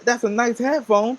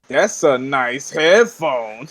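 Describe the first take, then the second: First: It is said in a sincere, friendly tone. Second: It is said in a mocking, sarcastic tone. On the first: The compliment is meant sincerely. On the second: The compliment is heard as mockery.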